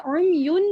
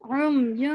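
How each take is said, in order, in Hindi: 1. अंतिम n स्पष्ट रूप से उच्चारित होता है। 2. अंतिम n नासिकीकरण से छिपा हुआ है। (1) "यहाँ पे मैंने उम युन नहीं पढ़ा" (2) "यहाँ मैंने गुन्ना किया"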